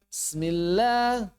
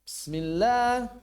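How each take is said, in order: The two takes are said the same way.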